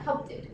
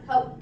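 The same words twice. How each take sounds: First: The word ends with an extra id syllable. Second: The word ends with a d sound. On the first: "It is not pronounced ending with id" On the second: "Not with the letter B. It is not helped"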